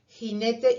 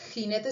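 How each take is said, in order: First: The first consonant is a soft aspirated h. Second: The first consonant is a harsh throaty sound.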